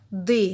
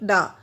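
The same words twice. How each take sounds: First: The word is said with a long 'ee' vowel. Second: The word is said with a short 'uh' vowel. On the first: The speaker calls it right. "We pronounce here T H E is as a the" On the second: The speaker calls it wrong. "not the"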